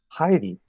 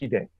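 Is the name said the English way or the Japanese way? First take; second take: English; Japanese. First: It sounds like the English girl's name Heidi. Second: It is said with a Japanese pronunciation. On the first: The speaker calls it wrong. "would call him Heidi, which to me sounds like a Swedish girl" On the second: The speaker calls it right. "The right way to say it is Hide"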